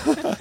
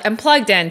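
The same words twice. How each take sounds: First: Laughing. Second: Said in the usual way. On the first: Real, not acted. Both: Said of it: "You're in the matrix right now".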